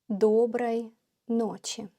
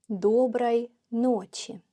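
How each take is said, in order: Both takes have the same delivery.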